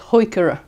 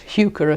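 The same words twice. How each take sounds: First: The word is said in its less common form. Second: The word is said in its common everyday form. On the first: This is the form held to be correct. "the correct pronunciation of this is heuchera" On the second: This is the form most people use. "most of us use heuchera"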